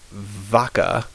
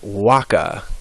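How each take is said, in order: First: The word begins with a V sound. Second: The word begins with a W sound. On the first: The speaker calls it wrong. "it looks like vaca" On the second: The speaker calls it right. "but it's pronounced waka"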